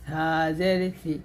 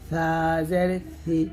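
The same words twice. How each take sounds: The two takes are said the same way.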